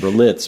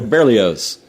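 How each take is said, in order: First: The name ends with an 'its' sound. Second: The name ends with an 'oz' sound. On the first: The speaker calls it wrong. "I always thought it was Berlitz" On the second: The speaker calls it right. "but it's Ber- Berlioz"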